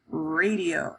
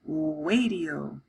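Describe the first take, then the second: First: The word starts with a clear R sound. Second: The word starts with a W sound. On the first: An adult says it correctly. The speaker calls it right. "He would say radio" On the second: A child cannot say R yet. The speaker calls it wrong. "I would say wadio"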